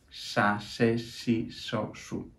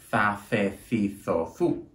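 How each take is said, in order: First: The consonants are pronounced with an s sound. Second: The consonants are pronounced with a th sound. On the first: This is how it is said in southern Spain. "en el sur de la península... van a decir" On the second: This is how it is said in Madrid. "En Madrid decimos"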